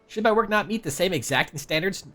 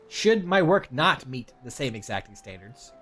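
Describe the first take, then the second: First: The words are articulated loosely and unclearly. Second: The words are articulated crisply and clearly. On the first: The speaker calls it wrong. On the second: The speaker calls it right.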